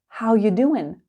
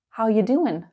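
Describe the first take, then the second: First: 'Are' is dropped and the phrase is run together. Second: The same.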